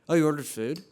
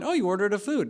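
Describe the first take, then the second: First: It sounds disapproving and judgmental. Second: It sounds like a neutral, simple exclamation. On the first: The choice is being criticized. "but it comes off like" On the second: It is only a remark of surprise. "she's just exclaiming"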